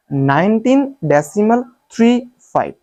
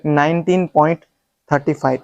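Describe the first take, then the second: First: three, five spaced as separate digits; raised pitch, each of three and five set apart; correct reading demo. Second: thirty five read as one number; wrong reading demo. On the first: Teacher showing the right way, digit-by-digit reading. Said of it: "सही तरीका ये है". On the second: Teacher warning against a mistake, demonstrated wrong reading. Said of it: "ये तरीका गलत है". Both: Shown as a demonstration.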